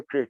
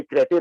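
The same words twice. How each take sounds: First: क्रेट said as a single syllable, kret, with no final vowel; the right one-syllable क्रेट, clipped after the t; correct pronunciation Crete. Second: क्रेटे said as kre-te with a final e sounded; the wrong two-syllable क्रेटे, ending in a clear e; wrong pronunciation Krete. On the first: Showing the anchor the correct form, क्रेट said as one syllable. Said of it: "क्रेट कहते". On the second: The anchor's mistake quoted, क्रेटे pronounced kre-te. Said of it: "ये क्रेटे ना कह रहे होते". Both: Shown as a demonstration.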